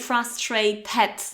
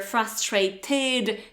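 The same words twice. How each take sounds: First: The final syllable is pronounced et. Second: The final syllable is pronounced id. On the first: The speaker calls it wrong. "you can't say frustrated ... never et" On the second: The speaker calls it right. "It's either frustrated ... or id"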